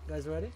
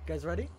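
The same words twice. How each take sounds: The two takes are said the same way.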